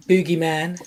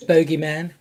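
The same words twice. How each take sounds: First: Boogeyman said with a long oo, like boogie; mispronounced name. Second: Bogeyman said with a long o, like bogey; corrected pronunciation. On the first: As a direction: say Boogeyman as boo-gee-man. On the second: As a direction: say Bogeyman as boh-gee-man. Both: Shown as a demonstration.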